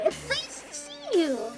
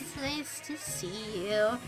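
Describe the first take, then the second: First: It sounds warm and genuinely friendly. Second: It sounds cold, as if not meant. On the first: The speaker is truly glad to see the listener. The speaker calls it right. "I actually meant it in a nice way" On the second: The speaker is not glad to see the listener. The speaker calls it wrong. "I accidentally said that in a way that makes it sound like it's not nice"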